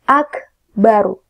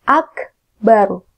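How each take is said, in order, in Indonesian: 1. Bunyi r tebal dan berat. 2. Bunyi r tebal dan berat.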